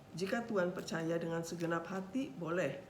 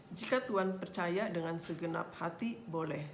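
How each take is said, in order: The two takes are said the same way.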